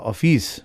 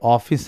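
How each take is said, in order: First: The stress is on the second syllable. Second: The stress is on the first syllable.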